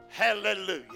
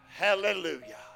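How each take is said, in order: The two takes are said the same way.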